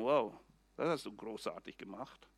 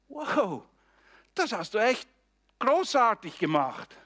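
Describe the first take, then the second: First: It sounds sarcastic and belittling. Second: It sounds sincere and encouraging.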